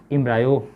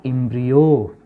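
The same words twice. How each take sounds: First: एम्ब्रायो with an "eye" in the middle; em-bry-o pronunciation. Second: एम्ब्रियो with an "ee" in the middle; em-bree-o pronunciation. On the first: Teacher allowing the common variant, saying em-bry-o. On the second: Teacher naming the zygote's product, saying em-bree-o. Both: Shown as a demonstration. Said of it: "बहुत सारे लोग एम्ब्रायो बोलता है".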